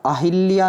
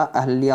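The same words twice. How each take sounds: First: अहिल्या said "a-hil-ya", with an i; inserted-i mispronunciation. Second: अहल्या said "a-hal-ya", no i; correct pronunciation. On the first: Teacher shows the error, अहिल्या as "a-hil-ya". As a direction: put an i after h in अहिल्या. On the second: Teacher corrects students, अहल्या as "a-hal-ya". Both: Shown as a demonstration. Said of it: "ई की मात्रा नहीं लगेगी".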